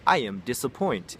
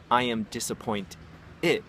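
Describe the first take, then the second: First: Imitated student. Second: "disappoint it" with the ending split off after a pause; corrected ending. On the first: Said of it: "they'd be like". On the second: Shown as a demonstration. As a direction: say "disappoint", pause, then add "it" as the fix. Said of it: "That's all you would change it to".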